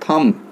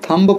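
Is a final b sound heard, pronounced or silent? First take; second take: silent; pronounced. First: The word ends on m with no b. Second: The word ends with an audible b sound. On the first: The speaker calls it right. "इसको थम पढ़ेंगे थम" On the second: The speaker calls it wrong. "थंब पढ़ेंगे तो गलत हो जाएगा"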